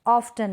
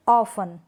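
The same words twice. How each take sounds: First: ऑफ्टन with a clear t after f; T sounded. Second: ऑफन with f straight into the vowel; silent T. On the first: Teacher showing what to avoid, ऑफ्टन with t sounded. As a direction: say ऑफ्टन as "of-tan". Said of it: "नहीं". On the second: Teacher answering her own question, ऑफन without t. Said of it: "क्या पढ़ेंगे". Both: Shown as a demonstration.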